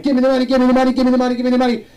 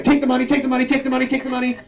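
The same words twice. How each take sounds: First: High, loud repeated demand; mock holdup shout; robber demand. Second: High, insistent repeated offer; mock reverse holdup plea; pushy relative. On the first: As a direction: play a bank robber shouting orders. Bank robber demanding money. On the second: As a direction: shove the money at them. Italian relatives pushing money.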